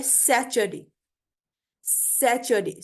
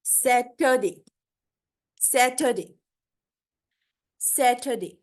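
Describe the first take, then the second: First: सैचरडे with ch in the middle; old pronunciation. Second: सैटरडे with t, no ch and no r; model pronunciation. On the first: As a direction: turn the t into ch, सैचरडे. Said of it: "सैचरडे भी नहीं कहते". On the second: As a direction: slowly model सैटरडे as sa-tuh-day. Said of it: "इसको बोलते हैं हम". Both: Shown as a demonstration.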